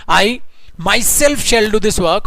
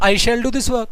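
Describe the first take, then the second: First: Myself leaned on, words drawn out slowly; emphasis on myself. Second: Said in the usual way. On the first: Shown as a demonstration. Teacher stressing myself for the class, slowly. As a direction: push the word myself hard. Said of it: "जोर डाल के बोल रहे हो". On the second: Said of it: "sentence सिर्फ ये बोलता हूं".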